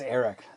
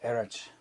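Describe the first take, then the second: First: The ch is said as a hard sound. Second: The ch is said as a soft sound. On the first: "The C H is a hard C H" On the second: "it could be a soft Erich"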